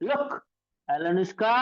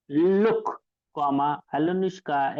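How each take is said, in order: First: Mock calling out. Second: Said in the usual way. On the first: Teacher demonstrates the child crying out to Alunushka, mild calling. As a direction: stretch the name's last vowel like a child calling. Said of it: "एक लेकरू असं मोठ्यानं ओरडलं".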